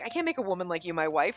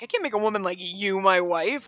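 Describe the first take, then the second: First: It is said humbly, feeling unworthy. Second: It is said with contempt and disgust.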